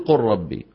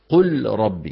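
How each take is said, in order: First: The lam merges into a doubled ra sound. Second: The lam is pronounced clearly before the ra. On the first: The speaker calls it right. "المهم بدك تقول" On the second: The speaker calls it wrong. "ما أحد أبدا يقول"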